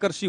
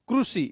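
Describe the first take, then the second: First: The first syllable is said as kri. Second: The first syllable is said as kru. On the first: This is how we usually say it. "जैसे कृषि अपन बोलते हैं कृषि" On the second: This is how Gujarati speakers say it. "इस री को रूट रू बोलते हैं वो"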